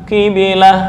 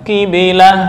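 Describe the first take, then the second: The two takes are said the same way.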